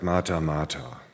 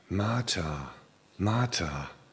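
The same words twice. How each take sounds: First: The name is said in an exasperated, reproachful tone. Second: The name is said in a warm, admiring tone. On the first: The listener is being scolded for making a fuss. "so ein wenig, also verstehe gar nicht, warum du hier so einen Wirbel machst" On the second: The listener is being praised with affection. "Aber lest das mal positiv"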